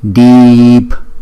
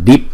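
First: The vowel is held long. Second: The vowel is short and clipped. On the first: The speaker calls it right. "chữ y này là chữ y dài, mà chúng ta đọc deep" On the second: The speaker calls it wrong. "chúng ta không phải đọc là deep"

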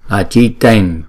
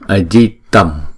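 First: The word ends with a palatal n sound. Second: The word ends with an m sound. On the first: The word comes before a palatal sound. "Thì chúng ta phải chuyển cái anuswara này thành chữ nhờ" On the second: The word stands alone. "Chữ này nếu mà đứng một mình thì chúng ta đọc là ajitam"

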